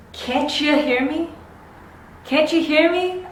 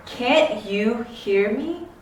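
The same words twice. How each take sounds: First: "Can't you" as "cancha", higher pitched; "Can't you hear me" as "cancha hear me?"; linked CH sound. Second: Said in the usual way. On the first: Shown as a demonstration. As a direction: run "Can't you" together with a CH, voice lifted. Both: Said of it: "insert this ch sound".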